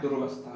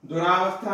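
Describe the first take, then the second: First: No vowel follows dur. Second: A long aa vowel follows dur. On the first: The speaker calls it right. "दुर्वस्था होता है" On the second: The speaker calls it wrong. "दुरावस्था ना होके"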